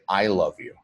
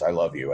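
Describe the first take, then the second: First: The emphasis falls on the word I. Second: No word is given special emphasis. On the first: It is the speaker, not anyone else. "change the emphasis to on to the word I" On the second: It is simply a matter of fact. "it's just a matter of fact statement"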